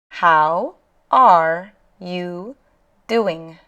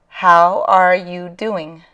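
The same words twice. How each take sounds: First: Each word is said clearly and separately. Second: The words are run together into one stream. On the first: "I'm going to say it very properly by enunciating each word" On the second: "when people speak, they usually say it"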